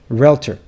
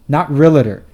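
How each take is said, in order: First: No vowel is heard between the L and T. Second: An extra vowel is heard between the L and T. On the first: The speaker calls it right. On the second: The speaker calls it wrong. "you've been pronouncing it wrong this whole time. Do you see an A between the L and the T?"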